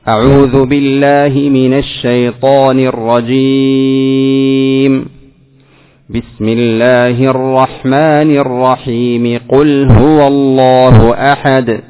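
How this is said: There is a pause only after the first phrase. "قطعت الأول وصلت الثاني بالثالث"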